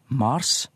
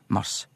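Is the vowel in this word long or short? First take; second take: long; short. First: The a vowel is long. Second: The a vowel is short. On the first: It names the planet. "Mars om planeten" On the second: It names the month. "Mars om månaden"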